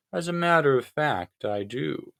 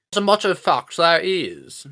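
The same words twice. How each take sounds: First: Said in the usual way. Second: Put-on high, loud, silly British accent; stupid British accent. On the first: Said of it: "said Tricia Griffith". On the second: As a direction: pipe up in a hammed-up British voice. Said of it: "in that stupid British accent".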